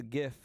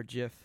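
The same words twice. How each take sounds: First: "gif" starting on a hard guh sound. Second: "gif" starting on a J sound; soft G. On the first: Friend naming his pick, either pronunciation allowed, "gif" with hard G. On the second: Friend offering the other pronunciation, "gif" with soft G. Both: Shown as a demonstration. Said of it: "however you wanna say it".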